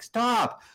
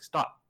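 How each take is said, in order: First: It is a desperate, loud yell. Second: It is a calm, scolding tone.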